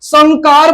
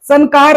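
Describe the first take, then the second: First: संकार as "sangkaar", nasal from the back; nasal ng sound. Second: संकार with plain n before का; wrong n sound. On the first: Teacher models the fifth-letter rule, संकार with ng. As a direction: say संकार with an ng before का. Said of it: "उसका उच्चारण पांचवा अक्षर ही होता है". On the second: Teacher shows the error to avoid, संकार with plain n. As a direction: say संकार as "san-kaar", tongue-tip n. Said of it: "संकार नहीं बोलेंगे". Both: Shown as a demonstration.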